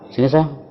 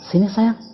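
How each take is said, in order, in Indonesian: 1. Diucapkan dengan kasar, tidak enak didengar. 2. Diucapkan dengan hangat, sambil tersenyum. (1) "Itu nggak enak banget loh kak. Asem banget" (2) "Dia berbicara dengan senyuman. Dia berbicara dengan cinta"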